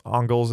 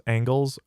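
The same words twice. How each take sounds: First: "Engels" with an open "ah" first vowel; pronounced Ong-gulz. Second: "Angles" with the short "a" of "cat"; pronounced like angles. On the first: Streamer reads a viewer's correction, "Engels" said as AHNG-gulz. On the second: Streamer reads out the disputed pronunciation, "Angles" said as ANG-gulz. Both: Shown as a demonstration. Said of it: "don't pronounce Engels as Angles".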